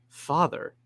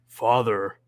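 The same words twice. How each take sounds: First: It is said in a normal voice. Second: It is said in a deep, manly voice.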